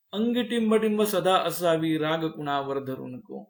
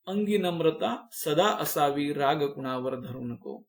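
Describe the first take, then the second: First: "अंगी टिंब टिंब" lifted, marking the missing word; blank read out higher. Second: Said in the usual way. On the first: Shown as a demonstration. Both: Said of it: "गाळलेल्या जागा भराच्या स्वरूपामध्ये".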